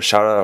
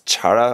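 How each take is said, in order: First: The word begins with a sh sound. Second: The word begins with a ch sound. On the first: "or Shara" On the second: "not Chara"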